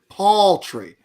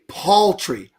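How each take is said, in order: No difference in how they are said.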